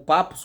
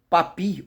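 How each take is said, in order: First: The name ends with an 'oos' sound. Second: The name ends with an 'ee' sound. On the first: "está escrito papos" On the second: "alguns preferem pronunciar papi"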